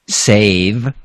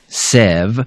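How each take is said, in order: First: The vowel is a long A sound. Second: The vowel is a short E sound. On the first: The speaker calls it right. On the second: The speaker calls it wrong.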